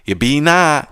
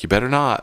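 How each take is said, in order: First: The word 'better' is clipped to 'be'. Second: The word 'better' is pronounced in full. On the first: "this is how you would say it" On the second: "you'd be like, you better not"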